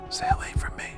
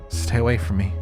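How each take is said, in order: First: Weak, creaky, breathless whisper. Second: Said aloud, higher and louder; a clear spoken plea, not whispered; full voice. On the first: Acted. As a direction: barely get the words out. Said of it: "My words come out in little more than a creaky whisper". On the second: Shown as a demonstration.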